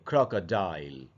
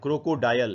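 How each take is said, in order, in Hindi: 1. अंत एक ही 'dile' अक्षर है। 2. अंत को 'da-yal' में बाँटा जाता है। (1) "इसको पढ़ेंगे" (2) "ये सही उच्चारण नहीं है"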